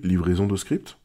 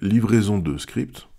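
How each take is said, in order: First: The phrase sounds relaxed with lighter emphasis. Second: The phrase sounds stilted with heavy emphasis. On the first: It sounds like real spontaneous speech. The speaker calls it right. "en vrai, en un peu plus authentique, on aurait dit" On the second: It sounds read from a script. The speaker calls it wrong. "Au-delà de la mélodie"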